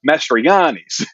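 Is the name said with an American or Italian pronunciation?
Italian. The name is said with an Italian pronunciation. This is how Italians say the name. "everyone would look at you with a puzzled face until they would go, oh"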